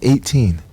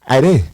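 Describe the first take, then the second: First: It is said plainly, sounding like 'eighteen'. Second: It is said in the local accent, sounding like 'Ade'. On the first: "She was saying eighteen" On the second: "she said, Ade"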